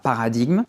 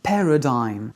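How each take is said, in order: First: The word is said the French way, without 'dime'. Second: The word ends with a 'dime' sound. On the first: The speaker calls it wrong. "On prononce pas paradigme" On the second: The speaker calls it right. "Ce I G N se prononce dime"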